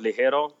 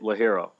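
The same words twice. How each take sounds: First: The word has a Spanish pronunciation. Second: The word has an anglicized English pronunciation. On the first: "instead of Ligero" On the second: "There's like the anglicized version of them"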